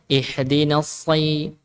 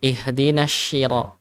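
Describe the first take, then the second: First: "ihdinas si-" with a thick s; slow "ihdinas si-" with no hush; correct shad. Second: "ihdinas shira" with a hushing sh; shad turned shin. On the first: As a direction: keep s heavy before i in "ihdinas si-". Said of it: "Harusnya ihdinas si". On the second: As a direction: misread "ihdinas shira" using sh. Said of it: "kadang ada yang bacanya". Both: Shown as a demonstration.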